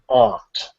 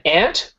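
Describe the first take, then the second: First: The word has a long 'ah' vowel, British style. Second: The word rhymes with 'pant', North American style. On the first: "If it's British, you would say aunt" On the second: "It's actually just like A N T for standard North American"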